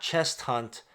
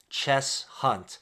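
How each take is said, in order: First: The first word ends with an 'st' sound. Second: The first word ends with an 's' sound. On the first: The speaker calls it wrong. "Not Chest Hunt" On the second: The speaker calls it right.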